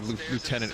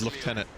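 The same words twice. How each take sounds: First: It is said the American way, 'loo-tenant'. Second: It is said the British way, 'lef-tenant'.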